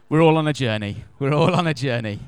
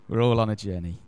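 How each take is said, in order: First: Laughing through the words. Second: Said in the usual way. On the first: Real, not acted. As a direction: chuckle it out, amused at the joke. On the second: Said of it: "repeated sober".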